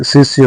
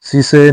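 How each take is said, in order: First: शिष्य with s and y joined; correct joined sya. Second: शिष्य with the ending loosened to say; wrong split ending. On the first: Teacher giving learners the correction, शिष्य as sis-ya. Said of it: "शिष्य नहीं होता है". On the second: Teacher showing learners the mistake, शिष्य as si-say. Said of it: "शिष्य होता है". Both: Shown as a demonstration.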